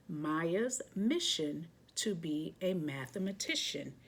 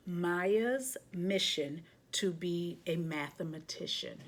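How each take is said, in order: Both takes have the same delivery.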